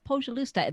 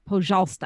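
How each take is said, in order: First: The word is said with an extra middle syllable. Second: The word is said without the extra middle syllable. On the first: The speaker calls it wrong. "That's incorrect. ... I was putting an extra syllable in there" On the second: The speaker calls it right. "The correct pronunciation is"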